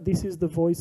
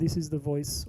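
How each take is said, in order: First: The voice is processed with AI enhancement. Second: The voice is heard without AI enhancement. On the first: "with A I" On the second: "without the A I"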